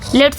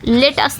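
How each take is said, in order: First: The vowel is dropped, giving one syllable. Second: Both words are said fully and separately. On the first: "लेट्स बोलते हैं" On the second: "लेट अस ना बोल के"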